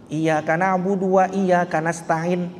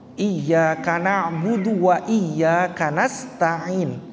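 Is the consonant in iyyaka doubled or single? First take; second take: single; doubled. First: The y sound in iyyaka is short. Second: The y sound in iyyaka is held long. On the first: Only the sunlight we worship and ask for help. The speaker calls it wrong. "kalau tanpa tasydid" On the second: Only You we worship and ask for help. The speaker calls it right. "kalau bacaannya pakai tasydid"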